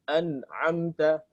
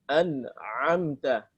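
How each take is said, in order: Both takes have the same delivery.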